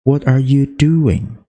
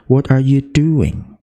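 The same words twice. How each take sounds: First: "doing" stressed, slow, falling at the end. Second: "do" of "doing" hit, slow and falling; stress on do. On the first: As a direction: press the second-to-last syllable of "doing". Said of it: "suku kata dua terakhir itu kita tekan". (tekanan pada "doing", pelan, nada turun) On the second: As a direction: lean on "do" in "doing". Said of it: "di do itu ditekan". (tekanan pada "do" di "doing") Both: Shown as a demonstration.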